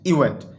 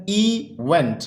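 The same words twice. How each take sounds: First: Said in the usual way. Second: event split in two, इ–वेंट; careful two-syllable breakdown of event. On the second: Shown as a demonstration. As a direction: draw out इ, then went as its own beat. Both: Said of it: "ये दो syllable word है".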